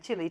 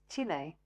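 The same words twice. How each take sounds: First: It is said with a Southern American pronunciation. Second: It is said with a native Chilean pronunciation. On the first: The speaker calls it wrong. "that's how we pronounced it" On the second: The speaker calls it right. "she taught us Chile"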